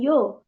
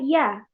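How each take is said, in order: First: The vowel is heavy and o-like. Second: The vowel is thin and a-like. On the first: The speaker calls it wrong. "bukan yo" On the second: The speaker calls it right. "Kalau kita baca ya"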